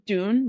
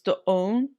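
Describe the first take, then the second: First: The vowel is one smooth long sound. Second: The vowel is split by a short break. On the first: The speaker calls it wrong. "it's not dune" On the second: The speaker calls it right. "like it's doon, like doon, like it's there's kind of like a weird like I don't know, pause there"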